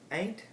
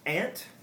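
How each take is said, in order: First: Said in a general Southern accent. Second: Said in a non-Southern accent. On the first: "with the general Southern accent" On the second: "how I say them"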